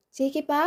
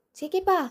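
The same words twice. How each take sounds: First: Said in the usual way. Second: Calling out. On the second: Acted. Wife calling her husband from inside, raised rising call. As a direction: shout it across the house, rising at the end.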